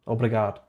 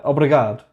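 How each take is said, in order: First: Said in the usual way. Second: Shouted out obrigado, louder. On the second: Real, not acted. Thanking the chat loudly for the Porto invite. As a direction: belt out the word obrigado. Trying out the Portuguese word.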